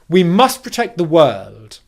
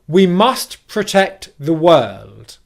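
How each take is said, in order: First: It is spoken quickly at natural speed. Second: It is spoken slowly and carefully.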